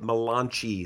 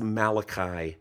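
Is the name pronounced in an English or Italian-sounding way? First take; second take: Italian; English. First: The name is given an Italian-sounding pronunciation. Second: The name is given its usual English pronunciation. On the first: It is a joke pronunciation. The speaker calls it wrong. "the Italian prophet" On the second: It is the real pronunciation. The speaker calls it right. "It's Malachi"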